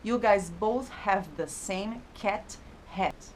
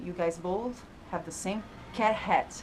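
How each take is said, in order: First: The final T sounds are clearly pronounced. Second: The final T sounds are swallowed. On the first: "Não foi assim que ele falou" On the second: "Ele engoliu o T do final das frases"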